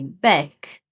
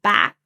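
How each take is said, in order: First: The vowel is a closer e sound. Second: The vowel is an open a sound. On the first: The speaker calls it wrong. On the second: The speaker calls it right.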